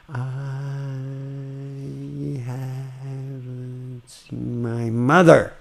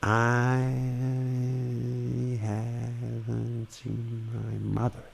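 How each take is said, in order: First: The word mother comes out loud. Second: The word mother is stressed but quiet.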